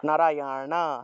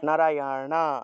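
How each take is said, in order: The two takes are said the same way.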